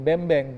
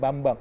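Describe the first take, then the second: First: Both vowels in the name sound like 'e'. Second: Both vowels in the name sound like open 'a'. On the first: This is how a foreign commentator said the name. The speaker calls it wrong. "dia ngomong kan bembeng gitu kan, kita protes loh. Jangan bembeng" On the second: This is how Indonesians say the name. The speaker calls it right. "Jangan bembeng, Bambang"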